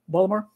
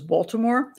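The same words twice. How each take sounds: First: It is said with the local Maryland pronunciation. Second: It is said with the standard, outsider pronunciation. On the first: The speaker lives in the area. "most people who live in this area say Baltimore" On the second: The speaker is not from the area. "The supposed proper name, I suppose, is Baltimore, and that's what everybody outside of Baltimore says"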